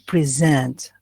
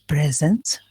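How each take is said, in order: First: The stress is on the second syllable. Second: No syllable of the word carries stress. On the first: It is a verb. "you focus on the second syllable" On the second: It is a noun meaning a gift. "When I say a present, there is no stress"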